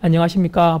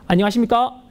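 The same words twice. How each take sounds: First: The voice stays back and is not projected. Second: The voice shoots forward, strongly projected. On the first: The speaker calls it wrong. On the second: The speaker calls it right.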